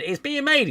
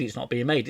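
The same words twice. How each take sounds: First: Very high, loud mock excitement; mock announcement. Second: Deflating answer in the everyday voice; mock retraction. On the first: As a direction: squeal it as breathless good news. Mimics back-and-forth film announcements. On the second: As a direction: drop back down to matter-of-fact denial. Mimics the contradicting announcement.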